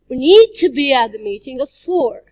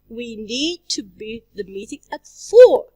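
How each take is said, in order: First: The word 'need' is stressed. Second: The word 'four' is stressed. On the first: "If we stress the word need" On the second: "If we stress the word for"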